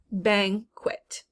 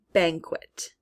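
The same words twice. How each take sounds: First: BANQUET split as "bang ... kwet"; syllable by syllable. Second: Said in the usual way. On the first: Shown as a demonstration. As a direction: pause between the syllables of BANQUET. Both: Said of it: "in the second syllable".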